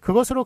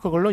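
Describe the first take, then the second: First: It is said as the full four-syllable form. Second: It is said as a shortened three-syllable form.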